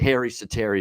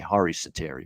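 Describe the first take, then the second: First: The first name sounds like English 'Harry'. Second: The first name does not sound like 'Harry'. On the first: This is the common anglicized way of saying it. The speaker calls it wrong. "the other way" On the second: This is how the player says his own name. The speaker calls it right. "that's how he pronounced it"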